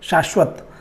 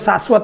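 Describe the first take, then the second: First: The first sibilant is palatal, like sh. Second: The first sibilant is dental, like s. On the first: "तालु से ये करा जा रहा है" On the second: "बहुत सारे लोग शाश्वत बोलते हैं। ... है दंत स"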